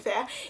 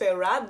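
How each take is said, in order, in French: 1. Le nom se prononce comme le mot français 'faire'. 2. Le nom se prononce comme 'Farah', en deux syllabes. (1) "je le prononce quand même faire" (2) "ça se prononce Farah"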